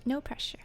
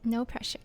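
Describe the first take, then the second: First: Whispered tease; whispering. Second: Said in the usual way. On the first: Shown as a demonstration. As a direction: whisper it teasingly. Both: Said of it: "teasing repeat".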